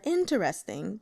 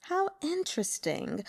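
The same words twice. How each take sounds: First: "interesting" in four syllables, in-ter-EST-ing; varied pronunciation. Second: "interesting" in three syllables, higher and softer; varied pronunciation. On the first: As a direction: sound out every syllable of "interesting". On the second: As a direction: muse "How interesting" lightly, high. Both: Acted. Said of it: "depending on how you say it".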